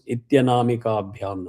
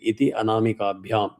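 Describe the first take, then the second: First: The two words are merged into one word. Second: The two words are said as separate words.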